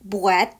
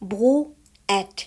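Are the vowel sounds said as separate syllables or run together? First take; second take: run together; separate. First: The vowels are said quickly, joined into one syllable. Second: The vowels are said slowly as separate syllables.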